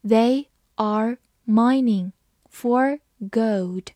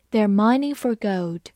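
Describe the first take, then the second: First: Slow and broken into chunks; slow reading. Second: Said in the usual way. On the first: Shown as a demonstration. Teacher reading slowly to the class. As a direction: read it slowly, word by word. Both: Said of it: "好，慢慢来读。".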